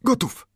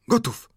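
First: High, keen voiced reply; Friday's eager answer. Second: High, unvoiced whisper of readiness; Friday's whispered reply. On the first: Servant answers his master before the volley, high and eager. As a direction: snap back ready, pitched up. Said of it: "Czyś gotów?". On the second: Servant whispers to his master before firing, high and unvoiced. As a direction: breathe it high and tense, no voice. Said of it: "odparł". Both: A narrator's reading.

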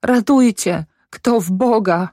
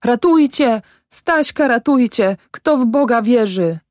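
First: High plea sinking as it goes; moaning. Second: High, falling cries; calling for help. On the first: Mother in spasms of weeping, moaned plea for help. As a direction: moan for help, losing force. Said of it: "jęcząc". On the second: Mother runs to the road for help, high desperate calls. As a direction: plead aloud in desperation, pitched well up. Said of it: "wołając". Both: A narrator's reading.

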